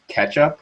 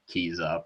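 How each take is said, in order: First: The name sounds like the word ketchup. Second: The name sounds like the words keys up. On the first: This follows the official community pronunciation. "that's what the README says" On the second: This is the speaker's usual casual name. "I usually just call it keys up"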